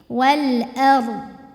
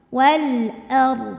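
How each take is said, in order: No difference in how they are said.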